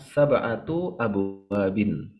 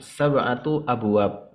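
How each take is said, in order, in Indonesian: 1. Harakat akhir itu dibunyikan sepenuhnya. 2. Harakat akhir itu dihilangkan. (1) "secara nahunya ... harokat itu dibunyikan semua" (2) "dalam pengucapan ... lebih gampang ... diwakofkan"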